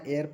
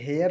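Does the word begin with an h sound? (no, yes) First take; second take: no; yes. First: The word starts with a vowel sound. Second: The word starts with an h sound. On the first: The speaker calls it right. "एयर पढ़ना है" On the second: The speaker calls it wrong. "हेयर नहीं पढ़ना है"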